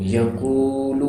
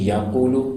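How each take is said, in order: First: The vowel after the q is long. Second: The vowel after the q is short. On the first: The speaker calls it right. "اگر میں اسی پیش کو تھوڑا سا کھینچ دوں" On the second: The speaker calls it wrong. "اگر میں پیش کو نہ کھینچوں اور میں کہوں یقول تو غلط ہو گیا"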